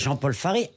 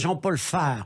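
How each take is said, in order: First: The surname ends with a sounded 'ay' vowel. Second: The surname ends without a sounded final vowel. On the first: The speaker calls it right. "je m'appelle Jean-Paul Faré" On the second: The speaker calls it wrong. "Si on met pas l'accent, ça fait Jean-Paul Phare"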